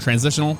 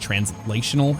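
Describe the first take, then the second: First: It is said quickly, with the middle sounds reduced. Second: It is said carefully, with every syllable fully pronounced. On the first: "I pronounce it like transitional or transitional, like real fast when I'm speaking" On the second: "it's actually translational if you really want to nail that pronunciation"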